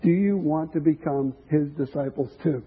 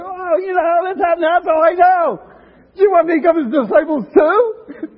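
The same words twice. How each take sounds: First: Said in the usual way. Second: Much higher, loud, laughing simpleton shout; beaming, carefree voice shouting with a laugh; dumb and happy. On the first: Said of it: "He was dumb and happy". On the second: Acted. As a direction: blurt it out like a giddy, clueless man. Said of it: "He was dumb and happy. He said".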